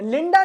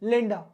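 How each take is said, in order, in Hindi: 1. अंतिम स्वर पूरा और साफ़ बोला गया है। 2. अंतिम स्वर छोटा और कमज़ोर है। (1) "लिंडा नहीं बोला मैंने" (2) "ये सब धीमी आवाज में बोला जाता है"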